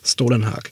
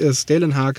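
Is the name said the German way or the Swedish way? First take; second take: Swedish; German. First: The name is said with Swedish pronunciation. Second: The name is said with German pronunciation. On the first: The speaker calls it right. "sondern Stålenhag" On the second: The speaker calls it wrong. "nicht Stålenhag"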